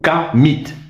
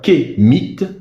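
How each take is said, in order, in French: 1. La première voyelle est un son A. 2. La première voyelle est un son E. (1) "ou bien A" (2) "on met E"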